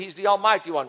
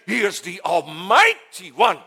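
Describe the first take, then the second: First: It is said casually, without much feeling. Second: It is proclaimed with strong conviction.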